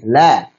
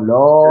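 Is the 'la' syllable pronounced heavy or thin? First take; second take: thin; heavy. First: The syllable is light with a thin vowel. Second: The syllable is heavy with a rounded vowel. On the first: The speaker calls it right. "La tipis" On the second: The speaker calls it wrong. "Jangan lo"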